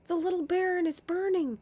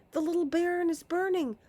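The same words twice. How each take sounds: First: High loud cry; panicked cry. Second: High loud cry, rushed faster; faster panicked cry. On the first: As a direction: shout the alarm. Repeated cry. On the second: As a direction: hurry the alarm out. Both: Acted.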